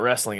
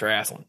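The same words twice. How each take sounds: First: It is said the standard way, as wrestling. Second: It is said the Southern way, as wrasslin.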